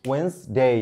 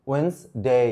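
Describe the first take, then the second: The two takes are said the same way.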